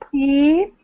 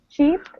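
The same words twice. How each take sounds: First: The vowel is stretched and exaggerated. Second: The vowel is said at normal length. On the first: "Let me exaggerate it first" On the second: "listen to this again"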